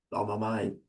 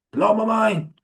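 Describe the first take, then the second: First: Low murmur. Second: Exclaimed. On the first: Telling friends about okra water, a quiet stunned murmur. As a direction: lower and softer, quietly stunned. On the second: Telling friends about okra water, an amazed outburst. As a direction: Blow punched high in real amazement. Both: Real, not acted.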